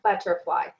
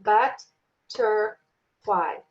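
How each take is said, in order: First: Said in the usual way. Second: "but-ter-fly" in three slow, separate beats; clapped-out syllables. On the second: Shown as a demonstration. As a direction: break "but-ter-fly" apart with a gap after each syllable. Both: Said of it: "So if I clap butterfly".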